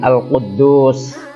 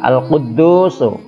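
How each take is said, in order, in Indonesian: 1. Kata ini berakhir dengan bunyi s. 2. Kata ini berakhir dengan vokal u. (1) "Kalau diwakafkan menjadi Al-Quddus" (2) "Ini tulisan Arabnya Al-Quddusu"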